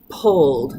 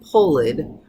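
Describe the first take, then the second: First: The ending blends in as a d sound. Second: The ending adds an extra syllable. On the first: The speaker calls it right. "the voiced blending with the voiced" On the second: The speaker calls it wrong. "not pulled"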